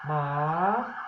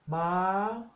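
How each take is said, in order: First: The word is said on a rising tone. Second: The word is said on a high tone. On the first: It means a dog. "the rising tone, which is ma" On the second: It means a horse. "high tone ma"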